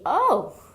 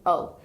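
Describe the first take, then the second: First: It sounds like a knowing realization. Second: It sounds unsurprised and flat.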